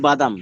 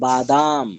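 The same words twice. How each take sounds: First: The word is said plainly without a drawl. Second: The word is said with a drawn-out tone. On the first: "আমরা বাংলায় কি বলি" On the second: "Urdu দ্বারা বলবে"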